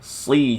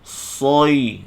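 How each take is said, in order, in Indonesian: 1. Suku kata si diucapkan nipis, bunyinya ringan. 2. Suku kata si diucapkan tebal, bunyinya berat. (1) "si nipis pula" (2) "jangan sebut soy"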